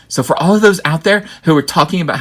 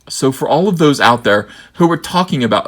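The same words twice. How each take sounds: First: It is read in a changed, put-on voice. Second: It is read in the speaker's ordinary voice.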